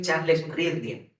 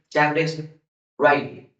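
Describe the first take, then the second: First: The surname is said with a d sound. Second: The surname is said without a d sound. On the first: This is how the name is written. "se escribe" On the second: This is how the name is actually pronounced. "pero se pronuncia"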